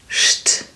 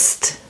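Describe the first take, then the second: First: It begins with an sh sound. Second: It begins with a plain s sound. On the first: This is how German pronounces it. "in German it's st... pronounced like S H T" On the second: This is how English pronounces it. "In English it's st"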